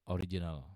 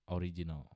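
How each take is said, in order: Both takes have the same delivery.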